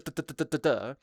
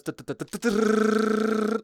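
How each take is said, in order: First: Slow firing duhs. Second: Louder, rapid run of duhs; frantic fast fire mimic; sped-up firing duhs. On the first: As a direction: mimic normal fire rate. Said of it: "my normal attack speed was". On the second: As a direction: speed up the mouth gunfire. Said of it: "Kill someone, it goes". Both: Shown as a demonstration.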